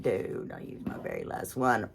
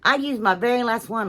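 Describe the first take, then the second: First: Mock glum self-quote. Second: Said in the usual way. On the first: Quoting her own grumble to the viewers, low and soft. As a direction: lower and softer, muttering it to herself. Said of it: "I'm like".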